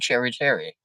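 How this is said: It is said in a posh accent.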